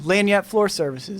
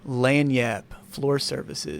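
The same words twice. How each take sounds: First: It is said at a normal speaking pace. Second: It is said slowly and deliberately.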